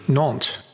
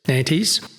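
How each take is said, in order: First: The name is pronounced the French way. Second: The name is pronounced the German way. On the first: "the French pronunciation of the port city" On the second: "the German version"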